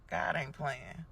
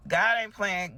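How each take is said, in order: First: Softer, knowing aside. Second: Louder and higher, preaching it; emphatic declaration. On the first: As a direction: say it to yourself, almost under breath. Repeated declaration, first take. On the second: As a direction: proclaim it to the whole congregation. Repeated declaration, second take. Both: Acted.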